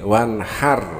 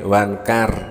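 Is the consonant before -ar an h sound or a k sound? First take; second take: h sound; k sound. First: The consonant before -ar is a breathy h sound. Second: The consonant before -ar is a k sound. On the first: The speaker calls it right. "hak itu yang benar" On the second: The speaker calls it wrong. "dirubah menjadi wanhar, kaf"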